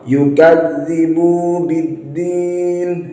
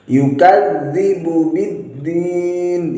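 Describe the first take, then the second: First: The vowel of 'bu' is drawn out long. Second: The vowel of 'bu' is kept short. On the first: The speaker calls it wrong. "membaca bu dengan panjang" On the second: The speaker calls it right. "baknya dipendekkan"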